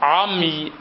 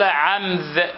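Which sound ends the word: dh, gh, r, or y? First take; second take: y; dh. First: The word ends in a y sound. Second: The word ends in a dh sound. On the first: "نطق الراء ياء" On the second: "عمذ بالذال"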